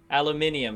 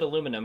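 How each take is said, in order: First: The word is said with the extra i syllable. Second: The word is said without the extra i syllable. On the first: This is how the other speaker's country says it. "You guys have" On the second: This is how it is said in America. "We pronounce it aluminum"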